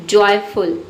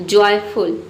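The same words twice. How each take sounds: No difference in how they are said.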